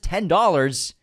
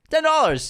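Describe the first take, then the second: First: Said in the usual way. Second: "ten dollars" said high and loud, stress on "ten"; emphatic repeat. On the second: Shown as a demonstration.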